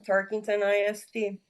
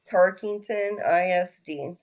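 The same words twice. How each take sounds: First: It is said at normal speed. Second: It is said slowly.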